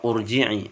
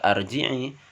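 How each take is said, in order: First: The word begins with a u vowel. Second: The word begins with an a vowel. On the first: "atau urji'i" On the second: "bukan dibaca arji'i"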